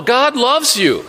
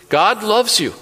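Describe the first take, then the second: First: God said higher and slower, pressing it home; insistent stress on God. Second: Said in the usual way. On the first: Shown as a demonstration. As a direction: lean on "God", slow and emphatic. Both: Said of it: "No, God loves you".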